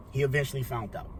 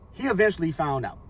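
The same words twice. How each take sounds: First: Soft, sunken restatement; hushed repeat. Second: Said in the usual way. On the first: Real, not acted. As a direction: let it drop away quietly for weight. Same words repeated, dropping away.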